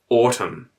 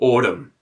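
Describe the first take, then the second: First: The T is said as a clear T. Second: The T is said as a quick flap.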